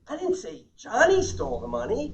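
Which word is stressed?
Johnny. The stress is on Johnny.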